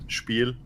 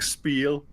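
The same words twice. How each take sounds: First: It is pronounced with a German accent. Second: It is pronounced with an English accent. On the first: "as we Germans call it" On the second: "like an English speaker would"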